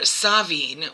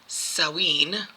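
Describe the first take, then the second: First: It is said the Scottish way. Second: It is said the Irish way. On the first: "which is um, Scottish, I believe" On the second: "and I believe that is more Irish"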